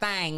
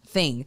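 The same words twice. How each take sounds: First: The vowel is an 'a' sound, like thang. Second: The vowel is an 'i' sound, like thing. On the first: The speaker calls it wrong. "It's not thing like chicken wang" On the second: The speaker calls it right. "let me say thing so you understand"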